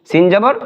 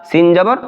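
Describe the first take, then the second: Both takes have the same delivery.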